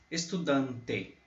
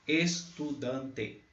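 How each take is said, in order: No difference in how they are said.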